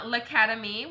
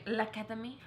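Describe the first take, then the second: First: Said in the usual way. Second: L'Academie tried as lah-ka-deh-mee, rising like a question; unsure pronunciation. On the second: Shown as a demonstration. Reading a brand name to the camera, trying L'Academie as lah-ka-deh-mee with a doubtful rise. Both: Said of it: "I don't know how to say that".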